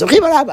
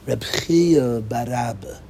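First: The name is said quickly. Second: The name is said slowly.

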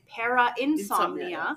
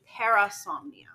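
First: The word has an extra 'in' syllable inside. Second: The word has no extra 'in' syllable inside. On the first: The speaker calls it wrong. "I kept calling it Para-insomnia" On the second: The speaker calls it right. "but it's actually Parasomnia"

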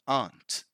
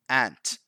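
First: The vowel is the long open 'ah' of 'father'. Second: The vowel is the short flat 'a' of 'ant'. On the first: "British English" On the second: "the American pronunciation"

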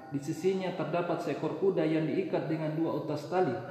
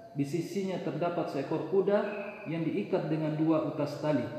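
No difference in how they are said.

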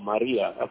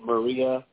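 First: Maria is pronounced with an Indian-language accent. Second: Maria is pronounced with an anglicized English accent. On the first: "as opposed to Maria" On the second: "hearing me say Maria ... the anglicized words in the pronunciation"

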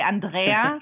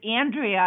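First: The name is said the German way. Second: The name is said the American way.

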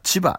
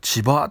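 First: It is said with the Kanto pitch pattern. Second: It is said with the local Shonai pitch pattern. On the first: "関東の人は千葉って言うんでしょうね" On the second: "私たちは千葉って言い方しますが"

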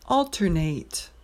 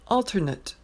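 First: It is pronounced as the verb form. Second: It is pronounced as the noun form. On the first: It names an action of switching back and forth. "The verb is alternate" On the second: It names a substitute person or thing. "the noun is alternate"

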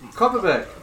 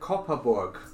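First: The last syllable is said as 'berg'. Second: The last syllable is said as 'borg'. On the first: This is the commonly assumed pronunciation. The speaker calls it wrong. "that's probably how most people think it's pronounced" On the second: This is the actual pronunciation. The speaker calls it right. "you actually pronounce it Copperborg"

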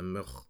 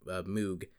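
First: It is said with a Dutch pronunciation. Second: It is said with an English pronunciation. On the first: The speaker calls it right. "it's a Dutch name" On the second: The speaker calls it wrong. "we should be pronouncing"

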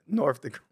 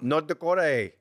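First: The 'th' is made with teeth on the lip. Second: The 'th' is made with teeth on the tongue. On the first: "You know you're saying it with your teeth on your lip" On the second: "Say it with your teeth on your tongue"

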